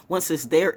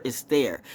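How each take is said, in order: First: There lifted into a rising, open question-like tune; rising first take. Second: There dropped in a firm, settled fall; falling final take. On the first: Stating a fact to viewers, with there rising. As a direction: set up the point with a lift on there. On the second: Driving the point home to viewers, with there falling. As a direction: close the point down hard on there. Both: Real, not acted. Repeats phrase for emphasis.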